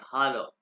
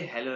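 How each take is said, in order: First: "हालो" with an open "ah" first syllable; German hallo. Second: "हेलो" with an "e" in the first syllable; English-style hello. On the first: Teacher corrects hello for class, German "हालो" with ah. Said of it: "ये आ है इसलिए वो हालो है". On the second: Teacher shows class the wrong word, English-style "हेलो". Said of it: "इसलिए हेलो नहीं है". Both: Shown as a demonstration.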